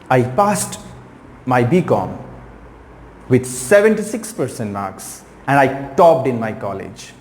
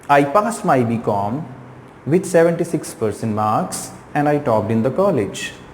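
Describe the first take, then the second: First: It is said lively, with key words emphasized. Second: It is said flatly, with no words emphasized. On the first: The speaker calls it right. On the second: The speaker calls it wrong.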